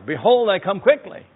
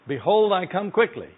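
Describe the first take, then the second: First: It is said louder than before. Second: It is said at normal volume.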